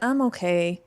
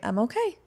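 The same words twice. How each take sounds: First: The pitch falls at the end, sounding gloomy. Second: The pitch rises at the end, sounding upbeat. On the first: The speaker sounds glum and not really fine. "it would have a completely different Eeyore quality to it" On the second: The speaker really is fine. "An upswing"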